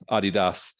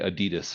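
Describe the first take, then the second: First: The name is said with a German pronunciation. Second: The name is said with an American pronunciation. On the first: This is the original way the founder's company name is said. "it's actually a German company... so it's Adidas" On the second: This is how people locally say it. "but we say Adidas here for some reason"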